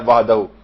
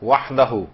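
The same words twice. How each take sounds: First: The middle h sound is light and soft. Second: The middle h sound is strong and throaty. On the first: The speaker calls it wrong. "हल्के से नहीं निकालनी जैसे दो चश्मी है निकालती हैं" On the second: The speaker calls it right. "सही आपको हा की आवाज निकालनी है"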